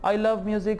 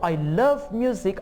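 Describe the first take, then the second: First: The voice sounds plain and unexcited. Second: The voice sounds lively and excited. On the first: The speaker calls it wrong. "I'm not talking excitedly" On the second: The speaker calls it right. "there is an excitement"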